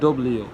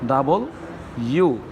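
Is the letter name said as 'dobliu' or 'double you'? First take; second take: dobliu; double you. First: It is said as a clipped 'dobliu'. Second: It is said as a full 'double you'. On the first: The speaker calls it wrong. "আমরা বলি ডব্লিউ, কিন্তু ডব্লিউ no" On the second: The speaker calls it right. "এটা হবে কি ডাবল ইউ"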